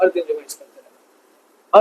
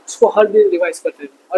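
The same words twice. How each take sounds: First: Lower, softer and slow, pressing "हर दिन" home; soft slow repeat. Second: Said in the usual way. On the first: Shown as a demonstration. Teacher softly repeats daily-revision advice to students, slow and quiet. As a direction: repeat it quietly and slowly so it sinks in.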